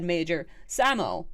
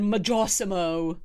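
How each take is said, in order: First: The name is said as Major Samo. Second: The name is said as Majorsimo. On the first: The speaker calls it right. "he said it properly. He said Major Samo" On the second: The speaker calls it wrong. "I thought it was really funny the first one. He said Majorsimo"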